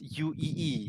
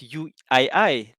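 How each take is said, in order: First: The letter I sounds like 'ee'. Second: The letter I sounds like 'eye'. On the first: This is how people there say it. "they pronounce it as U E E" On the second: This is not how people there say it. "they don't pronounce it as U I I"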